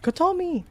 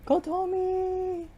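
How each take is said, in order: First: Sharp high shout of her name; frantic scream of a name. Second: Slow high stretched scream of the name; desperate drawn-out call; long drawn-out call. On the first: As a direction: yell it out in panic. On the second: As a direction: drag the name out across the fire. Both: Acted. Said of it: "screaming relentlessly".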